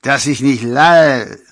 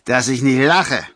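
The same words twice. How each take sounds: First: Put-on slow, loud drunken LALL; tongue-tied scoff, high and loud, slipping on LALL; tipsy slip. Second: Loud, higher LACHE, fully pronounced; tipsy scoff landing firmly on LACHE; self-corrected scoff. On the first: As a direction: draw out LALL like a drunk, dropping the end. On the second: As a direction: correct the slip with a two-syllable LACHE. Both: A narrator's reading. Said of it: "verbesserte sich sogleich".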